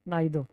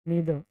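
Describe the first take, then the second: First: The first vowel sounds like 'eye'. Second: The first vowel sounds like 'ee'. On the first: The speaker calls it wrong. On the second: The speaker calls it right.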